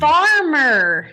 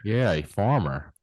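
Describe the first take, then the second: First: Farmer with a long open ar, said high and loud; clear farmer. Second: Mississippi farmer, slow and easy; Mississippi accent. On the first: Shown as a demonstration. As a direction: farmer stressed, the r clearly sounded. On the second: Real, not acted. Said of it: "That's my Mississippi accent there".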